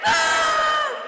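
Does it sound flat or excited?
excited. It is said with exaggerated excitement.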